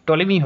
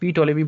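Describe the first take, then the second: First: The initial P is not pronounced. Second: The initial P is pronounced aloud. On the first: "টলিমি হবে উচ্চারণ" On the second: "পি টলিমি বললেও হবে"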